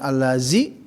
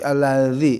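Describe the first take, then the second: First: The middle consonant is a plain z sound. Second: The middle consonant is voiced with tongue between teeth. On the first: The speaker calls it wrong. "bukan allazi ya" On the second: The speaker calls it right. "lidahnya setelah maharaj digigit"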